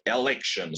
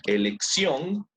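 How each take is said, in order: First: Election said in English with a shun ending; English election, falling at the end; English pronunciation. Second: Elección said in Spanish, ending in syon and rising; Spanish pronunciation. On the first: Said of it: "same thing". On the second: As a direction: read Elección with Spanish vowels. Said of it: "Misma cosa". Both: Shown as a demonstration.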